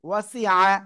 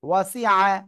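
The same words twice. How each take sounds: No difference in how they are said.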